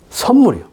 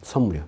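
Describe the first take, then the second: First: A higher, fuller 선물이요; emphatic. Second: A quiet, falling 선물이요; softly. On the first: (힘주어 올려 말하는 선물이요) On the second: (조용히 내려앉는 선물이요) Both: Shown as a demonstration. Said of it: "선물이라는 뜻입니다".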